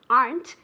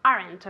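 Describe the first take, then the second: First: "aren't" as a single syllable, "arnt"; one-syllable aren't. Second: "aren't" wrongly split in two, "ar-ent"; two-syllable aren't. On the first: Teacher modelling the contraction, "aren't" in one syllable. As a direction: say "aren't" with no vowel before the n. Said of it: "is one syllable". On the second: Teacher showing the banned mistake, "aren't" as two syllables. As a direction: add an extra vowel in "aren't", "ar-ent". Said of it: "I never, ever, ever, ever want to hear". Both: Shown as a demonstration.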